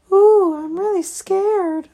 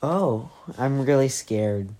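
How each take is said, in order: First: High, loud, slow mock fright; mocking scared. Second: Slow dry sarcasm; sarcastic. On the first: Dex mocks Stina's threat in a hammed-up high falsetto. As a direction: sneer it in a falsetto of fake terror. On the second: Dex answers Stina's threat with slow dry sarcasm. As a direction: drawl it, unimpressed. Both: Shown as a demonstration. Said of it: "that's not how you s-, what it sounded".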